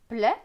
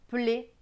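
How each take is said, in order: First: The vowel is open, like è. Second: The vowel is closed, like é. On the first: This follows the reading method's rule. "E T selon la méthode Bocher, c'est E" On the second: This is the speaker's regional way. "Et c'est E selon ma région"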